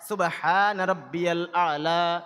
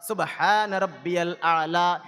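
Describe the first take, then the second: Both takes have the same delivery.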